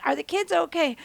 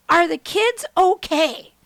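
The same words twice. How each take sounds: First: Said in the usual way. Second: Louder, drawn-out husband's question; slow, deliberate question. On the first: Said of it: "That's the first thing he says". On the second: Retold or imitated. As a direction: ask it slowly, stressing every word. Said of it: "He goes".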